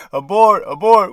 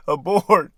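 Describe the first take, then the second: First: "Abort." called out louder, urgent; urgent "Abort." called out sharply. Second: Said in the usual way. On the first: Shown as a demonstration. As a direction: bark "Abort." like a warning call.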